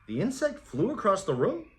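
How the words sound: It is said as a puzzled, confused question.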